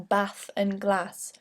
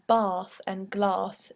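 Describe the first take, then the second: First: The vowel in bath and glass is not broad. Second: The vowel in bath and glass is broad. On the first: This is the original pronunciation, still used in the north. "instead of the original" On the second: This became the fashionable pronunciation. "the use of a broad A in bath and glass"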